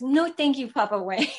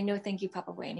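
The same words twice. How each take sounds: First: Put-on higher, louder 'No, thank you, Papa Wayne' in a little-kid voice; toddler repeating. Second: Gentle suggestion. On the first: Son parrots his mother's words to the spirit, high kid voice. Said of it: "He goes". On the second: Retold or imitated. Mother softly tells her son what to say. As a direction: model 'No, thank you, Papa Wayne' softly for a child. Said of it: "I go".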